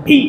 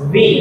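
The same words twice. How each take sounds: First: "ভি" as a breathy bh with both lips; old Bengali V. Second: "ভি" soft, upper teeth on lower lip; soft English V. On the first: Teacher recalling how pupils used to say it, Bengali bh. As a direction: say "ভি" as bhi. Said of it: "এতদিন কি বলতাম". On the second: Teacher demonstrating for pupils, soft English V. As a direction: let "ভি" buzz gently as vee. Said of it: "একদম soft ওয়েতে just উপরের দাঁতটা দেখা যাবে". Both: Shown as a demonstration.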